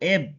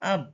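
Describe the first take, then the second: First: The syllable starts with an 'eh' vowel. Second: The syllable starts with an 'ah' vowel. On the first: "ই এর এ উচ্চারণ ধরি তাহলে বি এর ব উচ্চারণের জন্য এব" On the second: "আ উচ্চারণ ধরলে ই বি আব"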